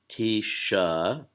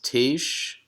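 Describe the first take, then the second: First: It ends with an extra uh vowel. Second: It ends on the consonant sh, no vowel. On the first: The speaker calls it wrong. "So it's not tisha" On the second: The speaker calls it right. "the first syllable is tish"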